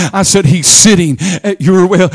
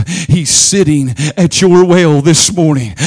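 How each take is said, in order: First: Your hit hard; stress on your. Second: Said in the usual way. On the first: Acted. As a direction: drive home the word your.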